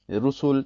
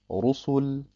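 First: The R sound is thin and light. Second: The R sound is full and dark. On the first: The speaker calls it wrong. "das ist falsch" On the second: The speaker calls it right. "Dunkel ausgesprochen hört sich das so an"

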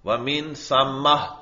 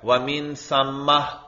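First: The word ends with a soft 'h' sound. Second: The same.

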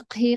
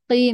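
First: The q sound has a breathy puff of air. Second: The q sound is voiced with no breath. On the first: The speaker calls it wrong. "انتبهي ما تهمسي فيها" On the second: The speaker calls it right. "قي مش قهي"

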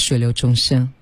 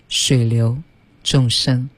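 First: The phrase is said straight through without a break. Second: The phrase is broken up by a pause inside. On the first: "你可以说水流众生" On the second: "也可以把它断成水流众生"

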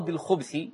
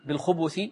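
First: The b is followed by no vowel. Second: The b is followed by a short u vowel. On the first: The word is singular. "ويصح ضبطها بالسكون" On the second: The word is plural. "يصح ضبطها بالضم للباء"

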